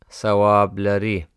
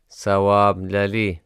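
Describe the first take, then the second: The two takes are said the same way.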